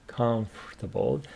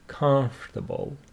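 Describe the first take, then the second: First: The O after 'comf' is silent. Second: The O after 'comf' is silent.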